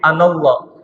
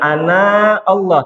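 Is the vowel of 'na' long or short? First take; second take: short; long. First: The vowel of 'na' is kept short. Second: The vowel of 'na' is drawn out long. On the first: The speaker calls it right. "tapi anallah" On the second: The speaker calls it wrong.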